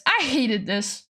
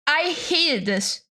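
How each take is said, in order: First: Said in the usual way. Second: "hated" drawn out slowly; slow, deliberate stress on "hated"; emphatic repeat. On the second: Real, not acted. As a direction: stretch out "hated" to hammer the point.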